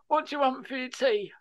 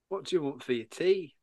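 First: The words are said in a London accent. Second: The words are said in a non-London accent. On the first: The speaker calls it right. "She's from London. She went" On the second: The speaker calls it wrong. "No, we're doing that. She didn't do that"

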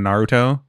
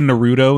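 First: The name is said in a Japanese-like way. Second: The name is said in an English-like way. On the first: The speaker calls it right. "instead of Naruto" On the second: The speaker calls it wrong. "when people say Naruto instead of"

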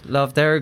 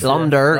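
First: The first word ends with a v sound. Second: The first word ends with an m sound. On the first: "am I pronouncing that right?" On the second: "they say Lam Derg in Belfast"

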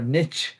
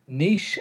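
First: It is said the American way. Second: It is said the Irish way.

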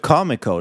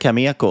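First: The name starts like the word comic. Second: The name does not start like comic. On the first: "Det låter som Comic-Con" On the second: "jag brukar säga Cameco"

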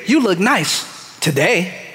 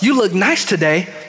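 First: It sounds snide, like a veiled insult. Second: It sounds like a sincere, friendly compliment.

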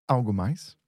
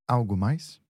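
The two takes are said the same way.

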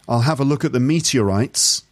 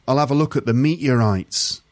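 First: The T in meteorites is clearly pronounced. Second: The T in meteorites is a glottal stop.

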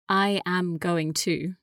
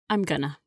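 First: Each word is said fully and separately. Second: The words are squeezed into a quick reduced form. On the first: "instead of saying" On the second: "we say"

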